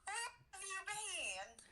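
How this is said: It is said in a country accent.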